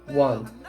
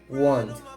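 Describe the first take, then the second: First: The two words are contracted into one syllable. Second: The two words are contracted into one syllable.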